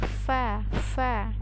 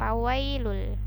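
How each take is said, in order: First: The word begins with an F sound. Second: The word begins with a P sound. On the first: The speaker calls it right. "tapi fa fa" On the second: The speaker calls it wrong. "bukan ya"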